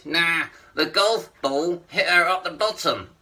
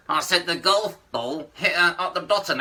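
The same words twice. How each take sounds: First: Puppet line through still lips, "golf ball" slurred to "kolfp"; "golf ball hit her up the bottom" slowed, lips barely moving; ventriloquist puppet voice. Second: The same puppet line again through still lips; repeated ventriloquist line. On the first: Acted. Ventriloquist's puppet telling the comic the punchline. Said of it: "Say that again?". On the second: Shown as a demonstration. Puppet repeats the line when the comic asks again. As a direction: repeat "golf ball hit her up the bottom" without moving lips. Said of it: "for a ventriloquist, that's difficult".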